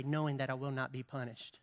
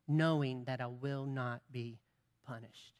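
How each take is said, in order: First: Quiet. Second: Dropping to a near hush on punished; quiet emphatic repeat. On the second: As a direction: let the last word fade away softly. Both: Real, not acted.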